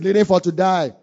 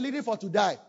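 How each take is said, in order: First: The phrase is shouted loudly. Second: The phrase is said at normal volume. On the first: "Let's shout it" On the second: "Let's say"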